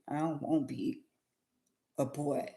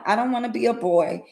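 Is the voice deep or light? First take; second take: deep; light. First: The voice is pushed deeper, with added bass. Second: The voice is light, without added bass.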